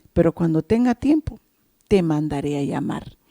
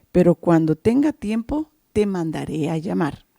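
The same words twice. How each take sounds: The two takes are said the same way.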